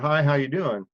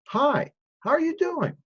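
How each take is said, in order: First: It is tossed off without real interest. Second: It is said warmly, with real interest.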